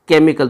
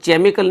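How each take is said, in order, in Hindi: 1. शब्द की शुरुआत k की आवाज़ से होती है। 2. शब्द की शुरुआत ch की आवाज़ से होती है। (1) "इसको बोलते हैं केमिकल" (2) "इसको केमिकल नहीं बोलते"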